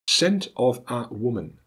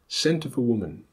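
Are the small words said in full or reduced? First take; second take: full; reduced. First: Every small word is said in full. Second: The small words are reduced with schwa. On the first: "as they are spelt" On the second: "as they are pronounced"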